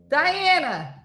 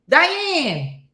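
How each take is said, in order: First: The name is said in a plain everyday way. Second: The name is called out in an old-Italian style.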